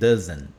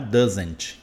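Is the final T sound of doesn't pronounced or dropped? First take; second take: dropped; pronounced. First: The final T sound is dropped. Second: The final T sound is clearly pronounced. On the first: The speaker calls it right. "Não fale o T" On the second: The speaker calls it wrong. "Não fale o T, não é doesn't"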